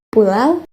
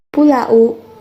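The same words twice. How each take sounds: First: The final vowels blend into one gliding sound. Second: The final vowels are said as separate sounds. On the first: The speaker calls it right. "dibaca menjadi bunyi w" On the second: The speaker calls it wrong. "Tidak dibaca"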